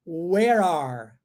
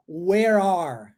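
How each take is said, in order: Both takes have the same delivery.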